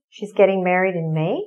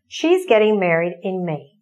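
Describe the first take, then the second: First: It is said with question intonation. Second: It is said with statement intonation. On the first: It asks for clarification. "How do we make it into a question?" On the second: It states a fact. "That's a sentence or a statement"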